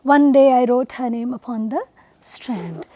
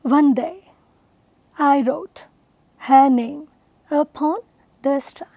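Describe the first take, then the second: First: ONE DAY I WROTE HER NAME UPON THE in one low even flow, then STRAND alone; low monotone line with a short pause before a dropped STRAND; run-together reading. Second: ONE DAY... I WROTE... HER NAME... UPON... THE STRAND, long pause after each pair; stress pattern demo. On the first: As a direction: read the verse joined up, letting STRAND fall. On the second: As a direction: split the verse into five spaced iambs. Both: Shown as a demonstration. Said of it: "notice the stress pattern in it".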